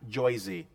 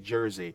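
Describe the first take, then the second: First: Jersey is said in an exaggerated local pronunciation. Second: Jersey is said in a plain, ordinary pronunciation. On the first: "or in fact, Joy-Z is what you want to say" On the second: "you say Jersey"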